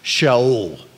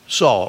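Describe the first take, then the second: First: The name begins with an 'sh' sound. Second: The name begins with an 's' sound. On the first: This is the original Hebrew form of the name. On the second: This is the familiar English form of the name.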